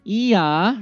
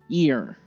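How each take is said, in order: First: It has no r sound at the end. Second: It ends with a strong r sound. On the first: "remember British pronunciation" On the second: "American style"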